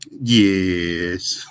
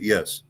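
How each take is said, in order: First: It is said in an imitated South African accent. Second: It is said in the speaker's ordinary accent. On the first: "They kind of say it like this, yes, like that" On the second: "you say, okay, yes"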